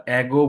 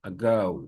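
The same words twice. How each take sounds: First: অ্যাগো said "ego" with an open e; the habitual local অ্যাগো; wrong Bengali-style ago. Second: অ্যাগো with a short schwa and "gau" ending; the corrected English অ্যাগো; correct ago. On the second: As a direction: say অ্যাগো as "əgau", light first vowel. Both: Shown as a demonstration. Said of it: "আমরা অ্যাগো বলতাম".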